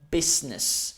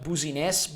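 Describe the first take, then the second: First: It has no extra E vowel in the middle. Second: It has an extra E vowel in the middle. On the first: The speaker calls it right. "you don't have to pronounce the E sound" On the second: The speaker calls it wrong. "not booziness"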